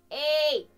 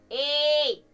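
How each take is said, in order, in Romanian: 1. Sunetul este strălucitor, metalic și strident. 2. Sunetul este strălucitor, metalic și strident.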